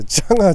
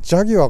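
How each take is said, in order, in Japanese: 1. 最後は長い 'gaa' の音。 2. 最後は 'gyua' の音。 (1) "ジャガーってイギリスの車の話しようと思って" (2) "ジャギュアかよ"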